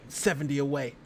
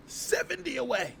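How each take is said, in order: First: Said in the usual way. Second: Higher, slow, sing-song seventy away; hopeful plea to viewers, higher sing-song; playful sing-song. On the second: Real, not acted. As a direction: croon it teasingly to the chat. Begging for subscribers.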